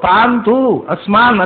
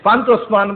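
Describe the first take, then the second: First: The two words are said as separate words. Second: The two words are fused into one word. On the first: These are two distinct words. The speaker calls it right. "ಅದು ಬೇರೆ ಶಬ್ದ" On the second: The whole line is taken as one word. The speaker calls it wrong. "ಇಡೀ ಪಾದ ಒಂದೇ"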